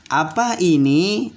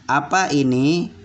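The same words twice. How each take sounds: First: "Apa ini?" asked slowly with a rise on apa; slow curious "Apa ini?" rising on apa; questioning tone. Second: Said in the usual way. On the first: Shown as a demonstration. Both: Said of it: "perhatikan cara gaya bicaranya juga".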